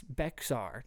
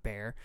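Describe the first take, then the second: First: "Bexar" read as spelled, two syllables; spelling pronunciation. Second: "Bear" with no X sound at all; local pronunciation. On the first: Host mock-protesting a local name, "Bexar" with the X sounded. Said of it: "That's not Bear". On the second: Host disputing the county's name, "Bear" as one syllable. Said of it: "That's not". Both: Shown as a demonstration.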